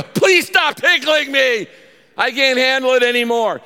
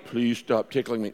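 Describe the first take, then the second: First: Passionate pleading. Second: Said in the usual way. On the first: Acted. Child begging someone to stop tickling, passionate high yell. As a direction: yell it desperately, like a kid tickled too much. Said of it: "And you are passionate". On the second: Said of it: "No, you go".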